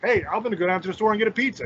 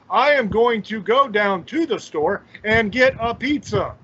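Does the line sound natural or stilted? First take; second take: natural; stilted. First: It is said in a natural, casual way. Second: It is said in a stiff, stilted cadence.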